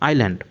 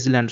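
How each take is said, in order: First: The word starts with 'eye', with no s. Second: The word starts with 'iss', sounding the s. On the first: The speaker calls it right. "এখানে এস silent থাকবে" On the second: The speaker calls it wrong. "এটা ইসল্যান্ড সম্পূর্ণ ভুল উচ্চারণ"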